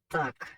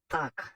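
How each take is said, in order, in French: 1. Il se prononce avec des sons du créole haïtien. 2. Il se prononce avec des sons du créole haïtien.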